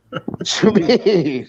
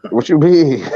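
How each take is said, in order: First: Drawn-out, slowed incredulous question; mock disbelief. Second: Said in the usual way. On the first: Real, not acted. Friend drawing out disbelief at the teasing claim. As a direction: stretch it out like you can't believe it.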